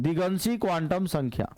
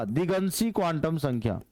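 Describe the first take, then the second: Both takes have the same delivery.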